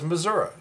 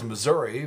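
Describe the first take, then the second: First: It uses the pronunciation heard in rural outstate areas. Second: It uses the pronunciation heard in the big cities. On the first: The message is aimed at rural voters. "for the outstate places, have another version that says Missouri" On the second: The message is aimed at big-city voters. "one version that says Missouri for Saint Louis and Kansas City"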